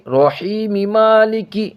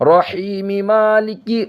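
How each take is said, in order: The two takes are said the same way.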